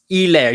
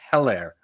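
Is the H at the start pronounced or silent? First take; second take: silent; pronounced. First: The word starts with no H sound. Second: The word starts with an H sound. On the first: The speaker calls it right. "You do not pronounce the H" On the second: The speaker calls it wrong. "everybody says"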